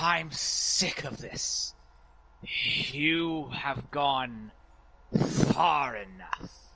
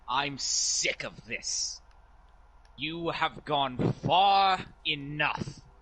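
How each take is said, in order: First: The voice is deeper and ghostly. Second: The voice is plain, not deep or ghostly.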